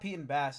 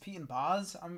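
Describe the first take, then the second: First: The last word has the vowel of 'pass'. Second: The last word has the vowel of 'Oz'. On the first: The speaker calls it wrong. "It's not Pete and Bass" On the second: The speaker calls it right. "it's [name] and [name]"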